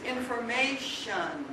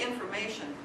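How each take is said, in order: First: It has the Valley Girl syllable structure. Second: It has the standard syllable structure. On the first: "They say information" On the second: "They don't say information"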